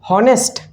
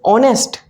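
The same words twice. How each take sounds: First: The word starts with an audible h sound. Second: The word starts with a vowel, no h sound. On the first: The speaker calls it wrong. "not honest" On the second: The speaker calls it right. "Here we pronounce is honest"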